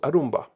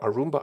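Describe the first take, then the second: First: The R is pronounced hard. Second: The R is pronounced soft. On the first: "hard R" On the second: "soft R"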